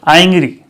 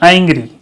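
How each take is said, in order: The two takes are said the same way.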